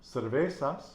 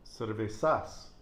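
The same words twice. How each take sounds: First: "cervezas" stressed on "ve"; penultimate-syllable stress. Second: "cervezas" wrongly stressed on the last syllable "zas"; slow it down, lean on "zas" in "cervezas"; wrong final stress. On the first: Teacher giving student an example, penultimate stress on "cervezas". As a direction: punch the middle syllable "ve" of "cervezas". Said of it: "it has the nose rule". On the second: Teacher showing the mistaken reading, slow final stress on "cervezas". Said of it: "we'd have to pronounce cervezas". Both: Shown as a demonstration.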